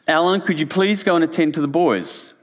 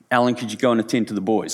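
First: It is said in a slightly raised voice. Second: It is said in a calm, normal voice.

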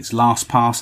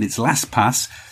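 First: It is said with a southern English accent. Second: It is said with a northern English accent.

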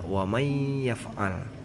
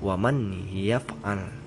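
First: The n merges into a nasal y sound. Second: The n sound is kept before the y. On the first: The speaker calls it right. "tapi dibaca" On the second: The speaker calls it wrong. "tidak dibaca begitu"

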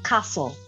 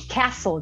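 First: It is said in a British/Australian accent. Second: It is said in an American-style accent.

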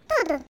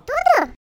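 First: The voice falls at the end, like an answer. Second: The voice rises at the end, like a question.

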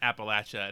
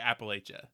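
First: It is said the non-Pennsylvania way. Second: It is said the Pennsylvania way.

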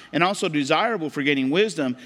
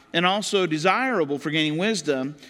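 The two takes are said the same way.

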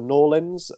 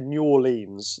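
First: It is said as Norleans, the Louisiana way. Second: It is said as New Orleans, the British way.

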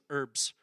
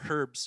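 First: It starts without an h sound, American style. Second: It starts with an h sound, British style.

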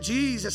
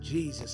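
First: It is said louder, with more energy. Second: It is said quietly, with little energy.

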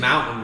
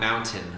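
First: The t sound in the middle is dropped. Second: The t sound in the middle is pronounced. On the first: The speaker calls it right. "Can't pronounce that second T. It's mountain" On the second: The speaker calls it wrong. "not mountain"

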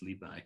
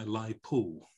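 First: The second syllable is said as 'bai'. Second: The name is said as 'lai po'. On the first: This is the modern, now standard way to say the name. The speaker calls it right. "Rather than Li Bo, it's Li Bai" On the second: This is a mangled version of the name. The speaker calls it wrong. "I once heard a Radio 3 announcer telling us"

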